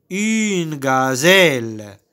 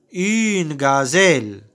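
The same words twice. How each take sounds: First: "Une gazelle" drawn out slowly, every syllable stretched; slow model word. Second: Said in the usual way. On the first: Shown as a demonstration. Teacher modelling "Une gazelle" slowly for pupils to repeat. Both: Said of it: "C'est une gazelle".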